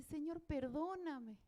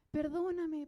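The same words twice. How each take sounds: First: Slow, hushed "Señor, perdóname" as she begins to cry; quiet, slow begging for forgiveness; soft tearful plea. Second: "Perdóname" cried out louder, falling at the end; louder tearful plea. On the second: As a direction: burst out with the plea. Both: Retold or imitated. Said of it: "yo empecé a llorar y dije".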